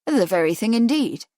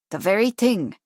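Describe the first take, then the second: First: A mild bright exclamation on "The very thing indeed"; lightly pleased outburst; exclaiming. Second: A touch of proud Irish shopkeeper; self-satisfied, lightly Irish; proprietary air. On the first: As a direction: Charles answers the shopkeeper with a mild exclamation. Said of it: "he exclaimed". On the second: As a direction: shopkeeper shows off her tin with a proprietary air. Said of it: "proprietary air". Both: A narrator's reading.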